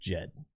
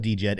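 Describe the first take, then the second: First: The word begins with a J sound. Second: The word begins with a D sound. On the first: The speaker calls it right. "the correct pronunciation, from what I understand, is just J E D" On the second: The speaker calls it wrong. "some people do call it D J E D"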